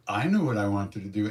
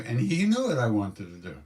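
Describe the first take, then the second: First: "I" punched at the start, then even; emphasis on "I", setting up a contrast; stress on I. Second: Swooping emphasis on "he" for the contrast; stress on HE. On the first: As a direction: lean on the first "I" as a private admission. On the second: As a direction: hit "he" hard, then let the rest fall. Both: Real, not acted. Contrasts I knew, he knew.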